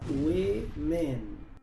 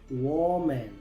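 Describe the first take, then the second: First: The first vowel sounds like short i. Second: The first vowel sounds like o. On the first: The speaker calls it right. "la O se pronuncia E" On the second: The speaker calls it wrong. "Muchos pronuncian esta palabra"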